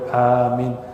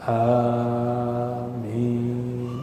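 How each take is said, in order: First: The first vowel is held only briefly. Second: The first vowel is drawn out long.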